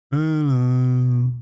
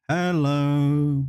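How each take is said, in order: First: A loud mock in-game hello; a bigger second go at the game sound; louder game greeting. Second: A slightly raised mock game-voice hello; a first light try at the sound effect; imitating game greeting. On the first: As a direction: belt out the hello like the game's sound effect. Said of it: "Are those good sound effects?". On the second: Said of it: "Something like that, it goes".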